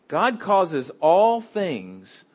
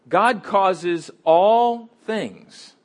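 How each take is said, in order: No difference in how they are said.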